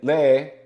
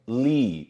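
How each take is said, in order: First: The vowel is split into two sounds. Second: The vowel is one long steady sound. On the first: The speaker calls it wrong. "I don't say le" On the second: The speaker calls it right. "just one"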